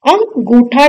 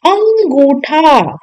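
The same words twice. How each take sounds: First: अंगूठा with a full nasal consonant, "am-gootha"; wrong full bindu. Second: अंगूठा with a nasalized, drawn-out first vowel; correct chandrabindu. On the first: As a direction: close अं firmly before गूठा. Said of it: "बिंदु नहीं आएगा". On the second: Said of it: "चंद्र बिंदु आएगा". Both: Shown as a demonstration.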